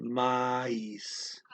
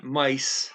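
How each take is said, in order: First: Mice clipped short and quick, the right way; said fast. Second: Mice stretched out slowly, the wrong way; slow, wrong take. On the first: Teacher showing learners the right quick mice. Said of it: "but you say it fast". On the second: Teacher showing the wrong way to say mice. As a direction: drag out mice as the mistake to avoid. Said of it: "it's not mice". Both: Shown as a demonstration.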